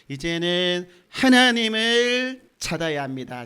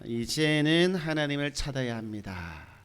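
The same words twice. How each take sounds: First: The word 하나님을 carries strong emphasis. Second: The sentence is said without special emphasis.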